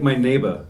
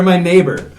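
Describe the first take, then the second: First: "neighbor" ending in "-uh", no R; soft A ending. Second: "neighbur" with a firm final R, louder; hard R ending. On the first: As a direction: drop the final R of "neighbor". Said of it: "with a soft A at the end". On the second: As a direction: sound the R fully at the end of "neighbur". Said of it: "use the hard R for". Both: Shown as a demonstration.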